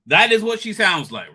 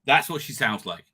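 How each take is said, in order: First: "is" punched higher and louder; stress on IS. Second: Said in the usual way. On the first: Real, not acted. Insisting to listeners after the clip, "is" stressed hard. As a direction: insist on it, hitting the word "is". Repeats it with emphasis on is.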